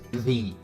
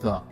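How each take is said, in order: First: The vowel is a long ee sound. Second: The vowel is a short weak uh sound. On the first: It comes before a word starting with a vowel. The speaker calls it right. "we say the if it comes before a noun that starts with a vowel sound" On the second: It comes before a word starting with a consonant. The speaker calls it wrong. "not the"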